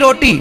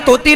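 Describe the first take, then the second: First: The word begins with an r sound, said clearly. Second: The word begins with a t sound, like baby talk. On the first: The child has been corrected. The speaker calls it right. "तोती नहीं रोटी" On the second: A small child is speaking. The speaker calls it wrong. "तोतली भाषा में बात की है"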